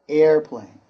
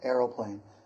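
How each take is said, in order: First: It has two syllables with no middle vowel. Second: It has an added vowel before the second syllable. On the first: This is the typical American form. "my pronunciation and typical American pronunciation is airplane" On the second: Some other speakers use this form. "some people might pronounce the O a little bit there"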